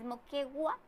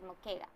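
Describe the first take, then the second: First: The u before the final a is sounded. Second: The u before the final a is silent. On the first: "¿Es Moquegua" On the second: "o no se pronuncia esa U? ¿O es Moquega?"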